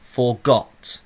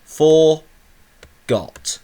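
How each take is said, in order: First: FORGOT as one word, weight on the second syllable, got; stress on GOT. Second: FORGOT in two separate beats, long high FOR, pause, then got; split into syllables. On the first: Teacher showing which syllable is stressed, stress on got. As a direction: say "Forgot" leaning on its final GOT. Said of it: "my voice goes up in pitch". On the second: Teacher counting two syllables for pupils, split into syllables. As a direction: break "Forgot" apart loudly, stretching the first syllable. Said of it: "There's two syllables". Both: Shown as a demonstration.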